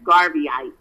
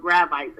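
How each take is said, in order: First: The word begins with the sounds 'garv'. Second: The word begins with the sounds 'grav'. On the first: The speaker calls it right. "I should have said Garveyites" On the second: The speaker calls it wrong. "and I said it wrong"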